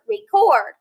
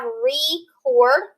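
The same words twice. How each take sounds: First: Record said whole, higher and falling; quick falling record; record blended. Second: Record with a slow long E, REE-cord; slow teacher demo of record. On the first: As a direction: say record smoothly, stress on cord. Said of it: "I can record myself". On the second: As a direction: stretch the E in record, rising. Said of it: "My E is long". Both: Shown as a demonstration.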